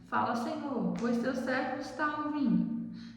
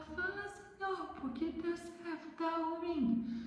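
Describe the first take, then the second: First: It is said in her normal voice. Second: It is said in a thin, high ant voice.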